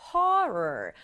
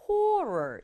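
First: "horror" with an open uh sound, falling; "horror" said as hur-uh, relaxed mouth. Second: "horror" with a rounded o sound, rising; "horror" said as hor-o, round lips. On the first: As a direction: say "horror" leaning toward a Korean 어 vowel. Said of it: "어에 가깝게 발음해요". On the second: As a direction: say "horror" leaning toward a Korean 오 vowel. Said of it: "horror 이렇게 오에 가깝게". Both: Shown as a demonstration.

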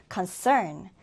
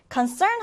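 First: Concern with the weight on the second syllable CERN; stress on CERN. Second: Said in the usual way. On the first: Shown as a demonstration. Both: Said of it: "두 번째 음절에 강세를 두고요".

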